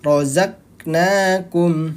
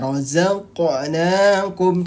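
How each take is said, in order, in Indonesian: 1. Huruf q yang mati ditahan tanpa memantul sama sekali. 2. Huruf q yang mati dilepas dengan sedikit memantul. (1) "Kenapa enggak usah dipantulin?" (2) "huruf yang sukun dibaca memantul"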